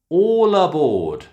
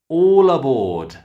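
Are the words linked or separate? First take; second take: linked; linked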